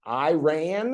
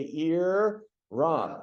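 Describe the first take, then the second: First: Mock "Iran" as eye-RAN, rising; wrong eye-RAN. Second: "Iran" as ee-RAHN, drawn out; ee-RON. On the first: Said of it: "if you hear anybody tonight saying". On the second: Shown as a demonstration. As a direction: lead the room in "Iran", ee-RAHN. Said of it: "get the whole group again to say".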